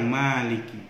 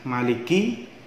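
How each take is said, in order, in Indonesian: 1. Vokal setelah m itu panjang. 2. Vokal setelah m itu pendek. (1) "bisa dibaca panjang" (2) "bisa dibaca mimnya pendek"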